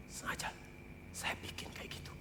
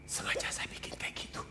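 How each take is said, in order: First: Ominous whisper of a warning; God's chilling whisper repeated; eerie whisper. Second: Ominous whisper of a warning; God's chilling whisper to the preacher; eerie whisper. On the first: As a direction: breathe it out as a threat. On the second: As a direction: whisper it like a threat. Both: Acted. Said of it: "Serem nggak?".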